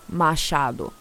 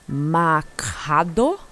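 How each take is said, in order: First: The name is said with a Brazilian Portuguese pronunciation. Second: The name is said with an English-speaking Canadian pronunciation. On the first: This is how the name is really said. The speaker calls it right. "no, sir, Machado" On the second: This imitates how locals mangled the name. The speaker calls it wrong. "when I got to Canada, everybody was like"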